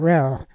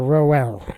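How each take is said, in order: First: The word has one syllable, O silent. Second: The word has two syllables, O sounded. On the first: The speaker calls it right. "with the O being essentially silent" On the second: The speaker calls it wrong. "not Roski or Roel"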